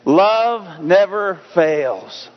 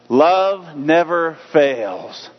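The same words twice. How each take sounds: First: It is said with strong conviction and energy. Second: It is said plainly, without strong feeling.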